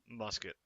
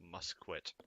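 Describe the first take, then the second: First: The second syllable sounds like 'ket'. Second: The second syllable sounds like 'kwet'. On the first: The speaker calls it right. "It's musket" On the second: The speaker calls it wrong. "I'm gonna pronounce it musquet just to bug the few of you"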